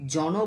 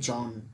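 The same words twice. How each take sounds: First: The word ends with an added vowel sound. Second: The word ends sharply on the consonant. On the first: The speaker calls it wrong. "আমরা কিন্তু জন বলি না" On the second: The speaker calls it right. "আমরা বলি জন"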